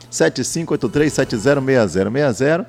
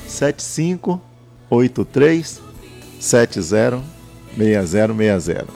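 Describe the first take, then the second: First: The numbers are said fast. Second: The numbers are said slowly.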